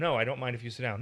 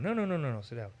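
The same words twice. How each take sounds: First: Louder, pointed No I don't mind; a resentful yes disguised as politeness; reluctant clipped permission; grudging no. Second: Quick friendly no no no, then settle into sit down; hearty no-no-no invitation; welcoming no. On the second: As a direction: genuinely make them welcome. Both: Shown as a demonstration. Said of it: "It only matters how you say yes or no".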